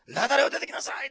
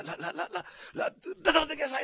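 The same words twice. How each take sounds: First: High, loud call to come out; a loud commanding cry. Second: High, stuttering, loud rush of a call; too hasty to wait, trip over the name then yell; an impatient Osaka man stammering the command out loud; impatient stammering shout. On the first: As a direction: shout it out as a sudden order. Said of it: "って叫んだんじゃないんですね". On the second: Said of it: "ってこう言いそうですね". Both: Shown as a demonstration.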